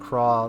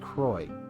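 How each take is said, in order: First: The name ends with an 'aw' vowel. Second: The name ends with an 'oy' vowel. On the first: This follows the Japanese voice acting. "they say Professor Craw like in the Japanese voice acting" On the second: This follows the spelling. "I think it's supposed to be Croy"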